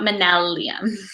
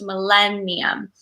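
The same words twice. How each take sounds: First: The N sound comes before the L sound. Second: The L sound comes before the N sound. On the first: The speaker calls it wrong. "not millennium" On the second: The speaker calls it right. "L first"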